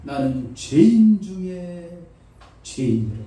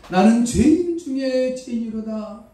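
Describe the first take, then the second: First: Paul confessing. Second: Higher, louder, slow 죄인 stressed; Paul crying out. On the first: Paul confessing, slow and falling. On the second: Paul crying out his confession, loud with 죄인 stressed. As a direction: cry out 죄인 with force. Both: Retold or imitated. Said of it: "바울이 말합니다".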